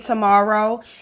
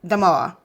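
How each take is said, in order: First: The word is said in full, all syllables clear. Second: The word is clipped short, syllables reduced. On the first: "A lot of people from Baltimore wouldn't say tomorrow" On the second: "we just cut a little short and we'll just say"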